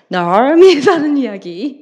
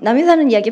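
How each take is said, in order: First: An R sound is joined onto the M. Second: The M sound is plain, with no R.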